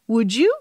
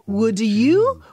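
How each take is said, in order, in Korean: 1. d와 y가 합쳐져서 j 소리가 나요. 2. d와 y가 따로 남아서 연결되지 않아요. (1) "이렇게 발음해요" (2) "이렇게 발음하는 경우는 없어요"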